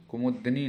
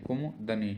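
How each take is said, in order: First: कुमुदनी with a full u after म; wrong pronunciation. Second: कुमुदनी with the middle u squeezed out, kum-dani; correct pronunciation. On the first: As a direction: say कुमुदनी with मु fully voiced. (कुमुदनी में 'मु' पूरा बोलकर) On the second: (कुमुदनी को 'कुम-दनी' जैसा बोलकर) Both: Shown as a demonstration. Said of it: "कुमुदनी नहीं है".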